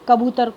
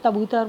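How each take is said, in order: First: The word begins with a k sound. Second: The word begins with a t sound. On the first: "क की बजाय त" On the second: "क की बजाय त"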